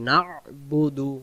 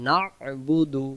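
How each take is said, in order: Both takes have the same delivery.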